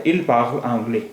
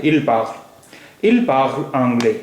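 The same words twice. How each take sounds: First: Said in the usual way. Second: "il parle anglais," drawn out slowly, word by word; slow teacher demo of the French; slow careful model. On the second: Shown as a demonstration. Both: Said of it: "वो अंग्रेज़ी बोलता है".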